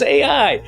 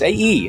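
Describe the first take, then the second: First: The second letter sounds like 'eye'. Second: The second letter sounds like 'ee'. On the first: "no, it's A I" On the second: "the I is pronounced like an E"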